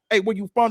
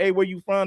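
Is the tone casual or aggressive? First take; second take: aggressive; casual. First: It is said in an aggressive, confident tone. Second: It is said in a casual, plain tone.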